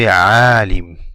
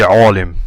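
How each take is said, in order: First: The vowel is made with unrounded lips. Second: The vowel is made with rounded lips. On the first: The speaker calls it right. "You say" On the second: The speaker calls it wrong. "And you don't round your lips. You don't say"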